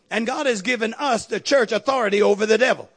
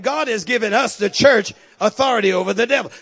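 First: Said in the usual way. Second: Louder, hammered repeat; repeated for emphasis. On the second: Acted. Preacher repeating his point to the congregation, louder and punched. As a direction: drive the line home to the church. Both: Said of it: "I said".

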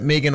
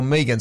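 First: Megan with a long "ee"; Megan as MEE-gan. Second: Megan with a short "e". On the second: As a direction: say Megan as "MEG-an". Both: Retold or imitated. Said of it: "for Megan's pronunciation".

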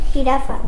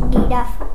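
First: Said in the usual way. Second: "girafa" con G suave, como en gato; pronunciación cambiada. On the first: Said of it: "Si t-, quitamos la G". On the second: Shown as a demonstration. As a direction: di "girafa" cambiando la jota por una G. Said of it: "diríamos". ("girafa" pronunciado como "guirafa")

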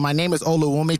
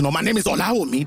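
First: Oluwumi said the Canadian way, O-lu-WU-mi; Canadian pronunciation. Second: Olawumi said fast the Yoruba way, O-la-wu-mi; proper Nigerian pronunciation. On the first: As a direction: say "Oluwumi" like a kid raised in Canada. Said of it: "I used to say it with a Canadian accent". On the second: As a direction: quickly correct yourself to "Olawumi" the Nigerian way. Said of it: "but I was supposed to say Olawumi". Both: Shown as a demonstration.

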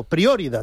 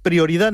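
First: "prioridad" with the accent on the O; stress on the O. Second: Said in the usual way. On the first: Shown as a demonstration. Host showing how supporters chant it, "prioridad" stressed on the O. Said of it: "con acento en la O".

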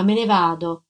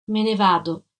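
First: Said in the usual way. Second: Listless. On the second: Acted. Ex-convict to his sister's husband, listless and deflated. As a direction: say "Me ne vado" limp and defeated. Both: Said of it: "disse lui, moscio".

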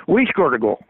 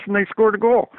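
First: "We" hit first and firmest to correct "they"; stress on WE. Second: Said in the usual way. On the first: Real, not acted. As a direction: lean on "We" in "We scored a goal".

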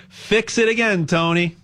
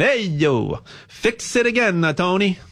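First: Said in the usual way. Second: Put-on Italian accent. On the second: Telling the Fiat joke to listeners, in a mock Italian accent. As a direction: ham up a playful Italian accent. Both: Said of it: "I'll say it with an Italian accent".

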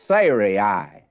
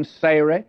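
First: Sarai in three syllables, "SAY-ree-eye"; correct pronunciation. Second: Sarai said in a shortened, anglicised way; usual mispronunciation. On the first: Shown as a demonstration. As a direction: sound out Sarai fully, ending on a clear "eye". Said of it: "would be the correct pronunciation". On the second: Real, not acted. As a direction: say Sarai short, without the stretched final "eye". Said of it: "I have actually been pronouncing it incorrectly".

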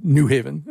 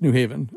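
First: "New Haven" with the weight on New; NEW Haven, first word leading; stress on NEW. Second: "New Haven" with the weight on Haven; New HAY-ven, locals' stress. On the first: Retold or imitated. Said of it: "I certainly have he-, heard". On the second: Shown as a demonstration. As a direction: say New lightly and land on the first syllable of Haven. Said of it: "right now, it's, it's New Haven".

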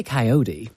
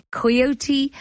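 First: Coyote said KY-oh-dee, flapped t; American coyote. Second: Coyote said KY-oh-tee, three syllables; English coyote. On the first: Shown as a demonstration. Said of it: "We say coyote". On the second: Real, not acted. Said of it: "Do you say coyote?".

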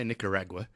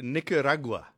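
First: Nicaragua with an "ag" as in rag; Nicaragua said the English way, "RAG-wa" ending; own pronunciation. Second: Nicaragua with a punched open "RAH": nicka-RAH-gwa; Nicaragua the Spanish way, emphasis on "ra"; stress on RA. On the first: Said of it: "I say Nicaragua". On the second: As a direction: hit the middle of Nicaragua, "RAH", Spanish vowel. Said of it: "You put the emphasis on the ra". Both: Shown as a demonstration.

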